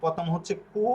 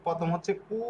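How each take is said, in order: Both takes have the same delivery.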